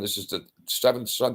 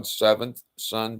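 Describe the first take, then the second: First: Said in the usual way. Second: Seventh son drawn out slowly, stress on seventh; slow emphatic repeat of seventh son. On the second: Retold or imitated.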